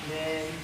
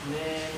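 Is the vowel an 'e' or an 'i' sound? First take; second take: e; e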